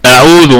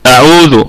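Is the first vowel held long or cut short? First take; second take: short; short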